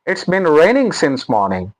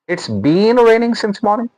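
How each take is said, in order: First: 'Been' has a short, weak vowel. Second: 'Been' has a long, stressed vowel. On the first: The speaker calls it right. "So बिन" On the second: The speaker calls it wrong. "No way"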